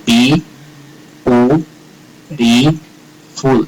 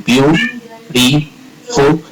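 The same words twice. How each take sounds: First: Bi, u, ri, fu split into four separate beats, u standing alone; wrong syllable split. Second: Biu, ri, fu in three beats, biu said as one syllable; correct syllable split. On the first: Teacher shows students the wrong split, four syllables with pauses. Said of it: "eso no podría ser". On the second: Teacher shows students the right split, three syllables. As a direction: join biu together, then ri, fu. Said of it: "y por eso tendría tres". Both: Shown as a demonstration.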